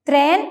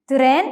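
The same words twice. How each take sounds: First: "ത്രേൻ" with t and r run together; English-style cluster. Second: "തിറേൻ" with a short vowel between t and r; correct Turkish pronunciation. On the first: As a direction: say "ത്രേൻ" as one syllable, tren. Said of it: "എന്നതിന് പകരം". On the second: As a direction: split "തിറേൻ" into tı-ren. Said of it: "എന്നാണ് പറയേണ്ടത്". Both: Shown as a demonstration.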